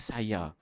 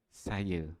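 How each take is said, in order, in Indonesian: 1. Kata ini diakhiri dengan bunyi a penuh. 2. Kata ini diakhiri dengan bunyi seperti e. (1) "Dari sudut tulisan sebenarnya saya" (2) "Tapi bila kita bunyi kita sebut saya"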